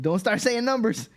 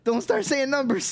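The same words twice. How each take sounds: First: Higher and louder, hammed-up alarm; mock panic. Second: Much higher, louder hammed-up squeal; mock shriek of panic. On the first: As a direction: warn him off in playful panic. Retold own panicked thought. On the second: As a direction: squeal the warning in comic alarm. Repeat, even higher.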